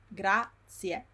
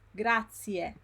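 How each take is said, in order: Both takes have the same delivery.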